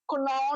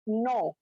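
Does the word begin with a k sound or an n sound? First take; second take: k sound; n sound. First: The word begins with a k sound. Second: The word begins with an n sound. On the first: The speaker calls it wrong. "कुनो नहीं होगा" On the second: The speaker calls it right. "के जो है वो silent है"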